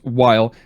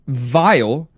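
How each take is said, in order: First: The name starts with a W sound. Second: The name starts with a V sound. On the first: "Sounds like Wiley" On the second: "in German, that would be pronounced, the W would be pronounced with a V"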